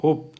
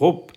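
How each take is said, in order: The two takes are said the same way.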